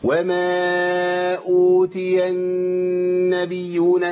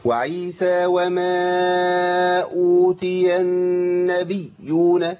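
First: النبيون chanted very slowly with a wrong ya; second error. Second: النبيون with the ya shadda dropped, chanted slowly; wrong shadda. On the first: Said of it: "وده خطأ تاني". (خطأ ثان في النبيون) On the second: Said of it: "يقولها بالشكل ده". (ترك تشديد الياء في النبيون خطأ) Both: Shown as a demonstration.

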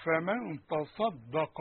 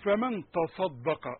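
First: "فمن تصدق" drawn out, each sound given its full place; slow Quran recitation. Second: "فمن تصدق" stretched slowly, the ص heavy and clear; slow careful recitation. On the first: Teacher reciting the verse for students, very slow. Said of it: "وكتبنا عليهم". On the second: Teacher demonstrating the correct verse, slow. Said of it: "شوف بقى هتقول لي إيه؟". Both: Shown as a demonstration.

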